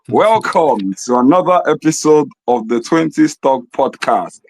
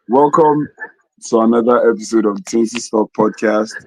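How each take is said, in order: First: It is said in a put-on Igbo accent. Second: It is said in the speaker's normal accent.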